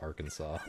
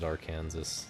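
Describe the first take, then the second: First: The word ends with a 'saw' sound. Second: The word ends like the state name Kansas. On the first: The speaker calls it right. "but Arkansas is pronounced Arkansas" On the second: The speaker calls it wrong. "I kind of wish it was acceptable to pronounce it Arkansas"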